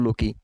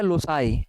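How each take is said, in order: First: The word is said with a k sound, 'low-key'. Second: The word is said with an s sound, 'low-sigh'. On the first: The speaker calls it wrong. "मैं खुद ही even कई बार ऐसे ही pronounce करता हूँ" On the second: The speaker calls it right. "Actual में इसका मतलब होता है लोसाई, प्रोनाउंसिएशन ऐसी होती है"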